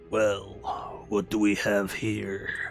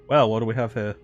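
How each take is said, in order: First: It is said in a put-on evil voice. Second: It is said in his normal voice.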